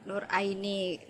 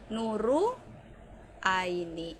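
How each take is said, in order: First: The r is said plainly before Aini. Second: An extra u vowel follows the r.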